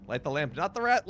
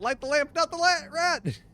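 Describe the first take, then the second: First: Said in the usual way. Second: Much higher, louder cartoon squeak; a hammed-up high squeak of the lamp line; silly squeaky voice.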